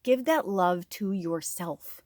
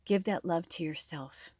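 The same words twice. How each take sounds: First: Gentle reminder. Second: Soft repeat. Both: Shown as a demonstration.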